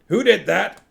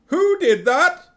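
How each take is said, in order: First: It is read in another character's voice. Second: It is read in Sybil Ramkin's voice.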